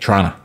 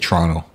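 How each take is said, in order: First: It is squeezed to two syllables ending in 'a'. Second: The first T sounds like CH; second T silent. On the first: The speaker calls it wrong. "Some people say Trana with an A" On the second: The speaker calls it right. "The second T, it's not even there. It's silent. And the first one is kind of like a CH"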